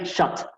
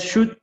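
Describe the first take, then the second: First: "shot" with a wide-open O, close to A. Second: "shoot" said with a U-like vowel. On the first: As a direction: open the vowel in "shot" towards A. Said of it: "Como una O bastante abierta". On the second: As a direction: pronounce the double O in "shoot" as U. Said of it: "Lo pronuncio como si esto fuera una U". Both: Shown as a demonstration.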